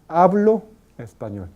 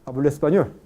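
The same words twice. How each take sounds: First: Spoken slowly, the o kept as a full vowel. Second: Spoken quickly, the o gliding into a u sound. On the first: "en habla despacio, despacio" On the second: "pero habla rápida, familiar"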